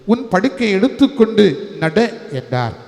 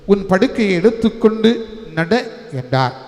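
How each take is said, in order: No difference in how they are said.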